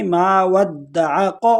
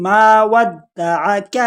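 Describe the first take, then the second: First: ما ودعک said quickly with a heavy ق-like ک; mistaken heavy kaf. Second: ما ودعک slowly, ک light and thin; thin kaf. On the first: Teacher imitating a common student mistake, plain voice. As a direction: say ما ودعک the wrong way, ک thick like ق. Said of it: "اکثر لوگ اس کو پڑھتے ہیں". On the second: Teacher showing the correct thin kaf, slow recitation. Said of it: "اس کو باریک پڑھیں گے". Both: Shown as a demonstration.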